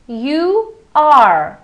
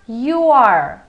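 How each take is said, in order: First: Both words are said fully and separately. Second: The words merge into one short syllable.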